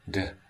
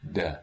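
First: The consonant is voiced with much breath escaping. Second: The consonant is voiced with only slight breathiness. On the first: "breathy voice, which is but happening in the consonant" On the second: "slack voice, which is not quite allowing the breath through, but not fully modal"

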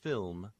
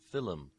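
First: The word is said as one syllable. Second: An extra vowel splits the word into two syllables. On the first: "the word film" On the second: "being pronounced film. This is a common pronunciation in Irish English"

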